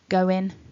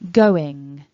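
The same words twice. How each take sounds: First: The word ends with an n sound. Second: The word ends with an ng sound. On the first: "with a n ending rather than the ng ending" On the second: "the way that you should try to pronounce them"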